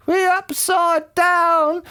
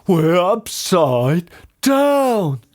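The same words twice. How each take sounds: First: Very high, drawn-out wail; panicked scream. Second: Slow, raised-pitch astonishment; shocked gasp. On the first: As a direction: shriek it slowly in panic. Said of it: "screamed Missus Twit". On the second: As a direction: gasp it out, stretching the words. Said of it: "gasped Mister Twit". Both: A narrator's reading.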